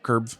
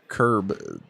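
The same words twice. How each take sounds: First: The word ends with a v-like sound. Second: The word ends with a clear b sound. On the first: "she's like curb" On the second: "you say curb"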